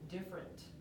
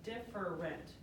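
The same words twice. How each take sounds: First: The word is clipped, with a syllable dropped. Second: The word is fully sounded with three syllables. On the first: The speaker calls it wrong. "we can say it lazy" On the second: The speaker calls it right. "if we say it correctly, it's different. Three"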